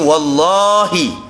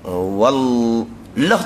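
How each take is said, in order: First: The vowel after the l is long. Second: The vowel after the l is short. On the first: The oath is valid. The speaker calls it right. "Panjanglah lam yang kedua tu" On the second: The oath is not valid. The speaker calls it wrong. "Wallah tu pendek"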